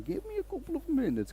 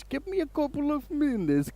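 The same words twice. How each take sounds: First: Very high, softer Eastern European tech guy; Eastern European accent. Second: Very high, slow Eastern European tech guy; Eastern European accent. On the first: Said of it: "I gave him that accent". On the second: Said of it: "he says". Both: Retold or imitated.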